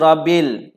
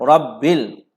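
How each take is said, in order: First: The b sound is short and single. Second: The b sound is held and doubled. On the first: The speaker calls it wrong. "Sabdu pada huruf ba ditinggalkan. Dan sebutan berbunyi Rabbil" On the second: The speaker calls it right. "Yang sepatutnya disebunyikan Rabbil"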